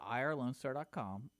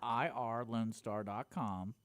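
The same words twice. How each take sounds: First: It is said at a normal pace. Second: It is said more slowly.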